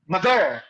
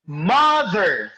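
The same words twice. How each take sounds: First: "mother" mispronounced with stress on -ther; wrong second-syllable stress. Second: "Mother" with the first syllable stressed and drawn out. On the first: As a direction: say mo-THER, leaning on the last syllable. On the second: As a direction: hit MO in "Mother", let -ther fall. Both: Shown as a demonstration. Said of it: "You don't pronounce it as".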